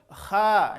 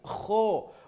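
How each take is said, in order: First: The letter is thin with an 'a' vowel. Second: The letter is thick with an 'o' vowel. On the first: The speaker calls it wrong. "terlalu kuat juga atau terlalu lemah menjadi kha, belum" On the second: The speaker calls it right. "tapi kho"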